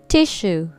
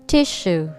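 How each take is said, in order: No difference in how they are said.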